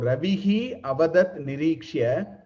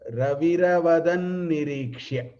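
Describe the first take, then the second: First: The words are said separately, with the final 'hi'. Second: The words run together, 'hi' becoming an 'r'.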